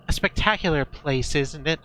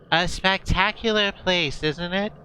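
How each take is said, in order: First: It is said in a different, non-mayor voice. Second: It is said in the mayor's put-on voice.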